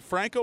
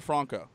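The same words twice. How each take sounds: First: FRANK-oh, short American A in "Franco". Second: FRAHN-koh, open A in "Franco"; Franco with broad A. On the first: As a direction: say "Franco" with the A of "bank". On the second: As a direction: say "Franco" with the A of "father". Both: Shown as a demonstration. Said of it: "is it Franco or Franco".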